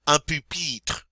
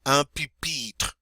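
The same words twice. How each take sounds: First: "Un pupitre" with a rounded French u; French model word. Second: "Un pupitre" repeated slowly; slow French repeat. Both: Shown as a demonstration. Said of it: "Give it your best shot".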